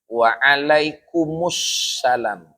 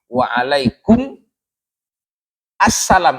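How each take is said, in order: First: The words run together with a doubled s sound. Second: The words are split, with the a sound pronounced. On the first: "Kalau dibaca wasol, waalaikum sama salam, maka dia dibaca tasdid" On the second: "Kalau dia berhenti baru waalaikum assalam, alifnya dibaca"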